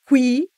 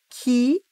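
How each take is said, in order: First: The u is pronounced after the k. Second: The u is silent after the k. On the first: "é ditongo" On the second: "é dígrafo"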